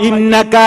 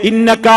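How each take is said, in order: Both takes have the same delivery.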